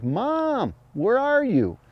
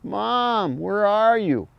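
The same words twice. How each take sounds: First: High, drawn-out pleading fawn call; fawn distress cry. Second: High, drawn-out crying fawn voice; fawn distress cry. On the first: Retold or imitated. Hunter imitating a lost fawn crying for its mother. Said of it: "opens its mouth and yells like". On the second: Shown as a demonstration. Hunter demonstrating a fawn's distress bleat. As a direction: call for mom like a scared fawn. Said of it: "So I open that hand up and go".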